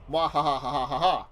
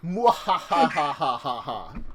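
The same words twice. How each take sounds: First: Louder, quicker evil cackle; storyteller laugh. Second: Slow drawn-out villain cackle; evil laugh. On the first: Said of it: "a storyteller laugh". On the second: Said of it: "I'm so evil that way". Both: Pretend.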